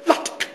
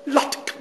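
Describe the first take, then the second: No difference in how they are said.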